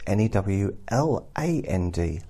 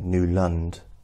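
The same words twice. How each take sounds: First: The second syllable sounds like 'land'. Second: The second syllable sounds like 'lund'. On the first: The speaker calls it right. "But Newland is N-E-W-L-A-N-D, land" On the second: The speaker calls it wrong. "I would automatically put N-E-W-L-U-N-D, because it's, you know, Newland"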